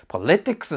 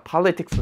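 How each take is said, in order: First: The stress is on the second syllable. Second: The stress is on the first syllable. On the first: The speaker calls it wrong. "いっこまえの母音にアクセントが来て、politics になるかなと思いきや" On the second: The speaker calls it right. "こいつはpolitics になるよ"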